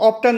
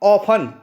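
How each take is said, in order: First: The t sound is pronounced. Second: The t sound is silent. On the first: The speaker calls it wrong. "इसको ऑफ्टन नहीं पढ़ा जाता है" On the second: The speaker calls it right. "इसको पढ़ेंगे हम ऑफन"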